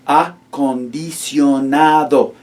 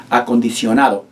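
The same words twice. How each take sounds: First: Acondicionado drawn out slowly, one syllable at a time. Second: Said in the usual way. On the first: Shown as a demonstration. Teacher slowly modelling Acondicionado for students, syllable by syllable. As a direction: break Acondicionado into slow syllables. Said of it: "We break them down into syllables". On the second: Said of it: "a big, long, fat word like".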